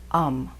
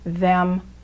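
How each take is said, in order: First: The word is reduced to a short um. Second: The word is said in full with th.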